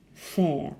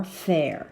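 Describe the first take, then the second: First: "fair" with no R at the end; "fair" in received pronunciation, R silent. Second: "fair" with the R sounded at the end; own-accent "fair", clear final R; pronounced R. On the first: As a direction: say "fair" non-rhotically, ending on the vowel. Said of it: "but I pronounce that R". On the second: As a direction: say "fair" rhotically. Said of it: "I pronounce that R". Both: Shown as a demonstration.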